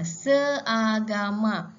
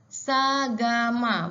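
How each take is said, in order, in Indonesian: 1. Kata ini dimulai dengan dua suku kata terpisah, se dan a. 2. Kata ini dimulai dengan satu suku kata gabungan, sa. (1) "dia tak ada bunyi seagama" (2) "dia akan bunyi sagama"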